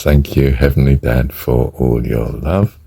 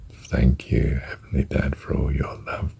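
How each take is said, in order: First: Slow mantra on the in-breath. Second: Softly whispered prayer mantra. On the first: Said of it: "Or as I do it". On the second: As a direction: breathe the mantra out in a whisper while holding. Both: Shown as a demonstration.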